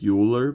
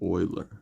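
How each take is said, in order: First: The name is pronounced just as it looks written. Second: The name is pronounced differently from its written form. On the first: The speaker calls it wrong. "it looks like Euler" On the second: The speaker calls it right. "but it's named Euler"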